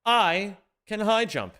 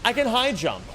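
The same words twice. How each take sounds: First: Slow, drawn-out, checking it; slow disbelief. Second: Higher, louder sudden realization; surprised discovery. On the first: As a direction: say it slowly, not believing it. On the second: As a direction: blurt it out in surprise. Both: Real, not acted. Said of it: "Wait a fucking second".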